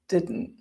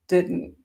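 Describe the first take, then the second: First: The T is replaced by a glottal stop. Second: The same.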